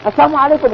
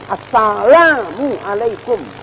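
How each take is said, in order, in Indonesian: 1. Diucapkan cepat, dengan bunyi l ditelan. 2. Diucapkan dengan bunyi l yang jelas. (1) "Jangan Assalamualaikum karena cepat" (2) "lamnya itu yang jelas"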